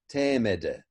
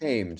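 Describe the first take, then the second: First: It is said with extra vowels between and after consonants. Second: It is said as one syllable, no extra vowels. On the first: "it used to be actually pronounced tamed" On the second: "we don't actually pronounce it"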